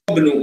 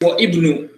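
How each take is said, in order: First: The i vowel is dropped, joining wa to bnu. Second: The i vowel is sounded after wa. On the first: The speaker calls it right. "you say Wabnu" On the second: The speaker calls it wrong. "you don't say wa Ibnu"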